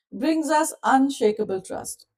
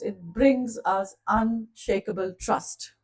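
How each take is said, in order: First: "Brings us unshakable trust" repeated higher with a falling close; a higher, emphatic echo of "Brings us unshakable trust". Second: Said in the usual way. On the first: Shown as a demonstration.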